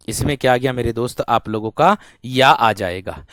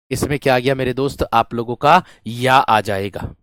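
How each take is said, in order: Both takes have the same delivery.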